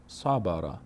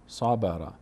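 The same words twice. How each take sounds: The two takes are said the same way.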